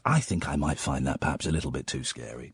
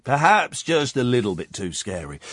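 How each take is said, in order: First: Soft, low murmur; quiet aside. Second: Said in the usual way. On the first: Shown as a demonstration. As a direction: mutter it to yourself.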